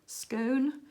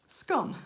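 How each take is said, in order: First: The word is said in a posher accent. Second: The word is said in an everyday accent. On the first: The speaker wants to sound refined. "When I want to be a bit posher" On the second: The speaker is talking casually. "When I'm talking normal"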